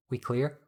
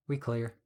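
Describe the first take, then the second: First: "We clear?" rising at the end; questioning tune. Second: "We clear." falling at the end; confirming tune. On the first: One checks if they are safe. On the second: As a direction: drop softly on "clear" as an answer. The answer confirming they are safe. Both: A narrator's reading.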